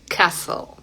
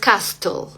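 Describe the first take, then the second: First: The t sound is silent in the middle. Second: The t sound is pronounced in the middle. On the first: The speaker calls it right. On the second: The speaker calls it wrong.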